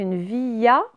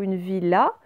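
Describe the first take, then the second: First: "villa" misread as vee-ya; "villa" with double L turned into y; wrong ye reading. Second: "villa" said vee-la, clear L; "villa" with no y glide, L pronounced; correct L reading. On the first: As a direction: say "villa" with a y glide, no L. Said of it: "ça n'existe pas". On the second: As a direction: say "villa" with a real L sound. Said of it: "C'est une villa". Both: Shown as a demonstration.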